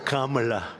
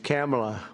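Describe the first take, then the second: First: The first syllable sounds like 'com'. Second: The first syllable sounds like 'cam'. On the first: "as opposed to Kamala" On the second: "It's Kamala, as opposed to"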